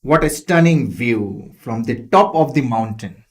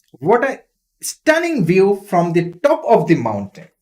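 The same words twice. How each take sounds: First: Said in the usual way. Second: Amazed. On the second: Shown as a demonstration. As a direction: gasp at the view from the peak. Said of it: "they were amazed, they were surprised".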